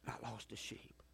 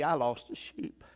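First: Breathy whisper, much softer; whispered repeat. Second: Said in the usual way. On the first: Shown as a demonstration. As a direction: drop to a whisper to let it sink in. Repeated line, then whispered.

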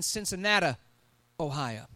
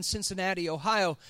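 First: "Cincinnati" ending in "-ah", like Cincinnata; granddad's pronunciation. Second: Said in the usual way. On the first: Retold or imitated. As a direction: say "Cincinnati" the old way, final vowel "uh". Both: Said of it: "as my granddad would say it".

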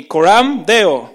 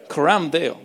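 First: "Coram Deo" loud and slow, every syllable spelled out; call to repeat. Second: Said in the usual way. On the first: Shown as a demonstration. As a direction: call it out slowly for the congregation to repeat. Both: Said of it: "How many of you can say with me".

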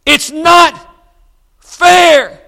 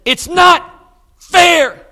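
First: High, loud, breaking shout; louder, rawer, desperate shout; near-shout. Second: High, loud, anguished protest; pained high wail; upset cry. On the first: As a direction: shout it out as she begins to cry. Mother repeats, standing her ground. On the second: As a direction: cry out that it isn't fair, near tears. Young mother in hospital, upset. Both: Retold or imitated.

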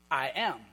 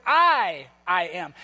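First: Said in the usual way. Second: "I" punched loud, then "I am" settles lower; stress on I. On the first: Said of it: "that would also be translated". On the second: Shown as a demonstration. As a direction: lean hard on the "I" before "am". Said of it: "he's emphasizing the I part".

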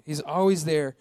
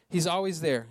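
Both takes have the same delivery.

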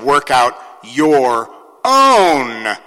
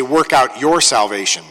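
First: Slow, heavy stress on own; emphatic own. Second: Said in the usual way. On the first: Shown as a demonstration. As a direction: stretch out own slowly. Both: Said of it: "that is emphatic".

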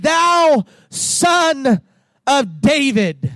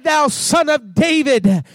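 First: Urgent cry to Jesus. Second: Said in the usual way. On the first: Retold or imitated. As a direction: cry "Thou Son of David" as a plea. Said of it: "they cried out and said". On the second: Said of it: "When they said".

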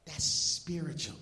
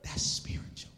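First: Said in the usual way. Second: Hushed breathy whisper of awe; "That's spiritual." fully whispered, almost no voice. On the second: Real, not acted. Whispered, then repeated aloud.

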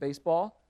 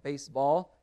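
First: Said in the usual way. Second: Baseball drawn out as two words, base, ball; split in two. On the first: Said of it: "should have been baseball". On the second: Shown as a demonstration. Teacher showing a scribe's wrongly separated word, baseball split in two. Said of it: "separating words that should have been put together".

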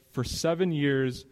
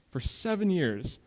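First: Said in the usual way. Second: "seven years" lifted higher and drawn out slowly; emphasis on seven years. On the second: Shown as a demonstration. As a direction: lean hard on "For seven years" and let it fall. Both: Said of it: "I'm emphasizing seven years".

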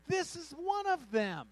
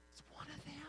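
First: High, loud, slow accusation; accusing servant girl. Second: High, very soft put-on voice; hushed accuser. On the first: Acted. Servant girl telling bystanders about Peter, loudly accusing. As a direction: call him out to everyone, high and drawn out. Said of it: "the servant girl saw him and began to say". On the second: Servant girl murmuring to bystanders about Peter, hushed accusation. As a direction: point him out in a high whispery voice.

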